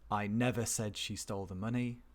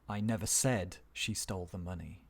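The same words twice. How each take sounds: First: The stress falls on the word never. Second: The stress falls on the word said. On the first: It has never once been said. "It stresses never" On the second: It was suggested or hinted, not said outright. "let's move down one more"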